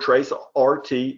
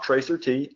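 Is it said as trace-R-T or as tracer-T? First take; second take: trace-R-T; tracer-T. First: It ends with the letters R and T spelled out. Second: It is read as one word, tracer plus T. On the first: The speaker calls it right. "this is Traceroute or TraceRT" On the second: The speaker calls it wrong. "I'm not going to pronounce it that way"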